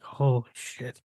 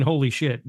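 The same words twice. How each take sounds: First: Soft, drawn-out mutter of dismay; underwhelmed holy shit. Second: Said in the usual way. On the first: Retold or imitated. Critic describing his own reaction to the movie, underwhelmed. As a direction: let it out slowly and quietly, unimpressed. Contrasts two ways of saying it.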